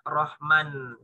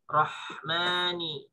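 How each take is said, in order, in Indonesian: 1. Bunyi h terpotong pendek dan tertahan. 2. Bunyi h keluar mengalir bersama napas. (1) "Bukan dibaca Rahman. Jangan langsung nempel" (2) "Artinya rohwa mengalir suaranya"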